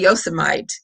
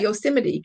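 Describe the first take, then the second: First: The name is said the local Kentucky way. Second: The name is said the usual, non-local way. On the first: "in Kentucky, we do have a Yosemite" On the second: "That's not a Yosemite, Kentucky"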